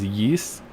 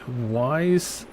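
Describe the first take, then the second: First: The name rhymes with 'east'. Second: The name rhymes with 'eyes'. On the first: "some people pronounce it as Yeast" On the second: "I have the Wise series"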